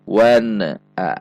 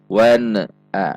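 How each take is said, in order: Both takes have the same delivery.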